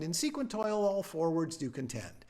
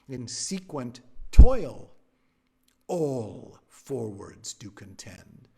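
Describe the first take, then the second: First: The word all is not stressed. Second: The word all is stressed. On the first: The speaker calls it wrong. "He was just sitting there reading" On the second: The speaker calls it right. "Always stress the word all"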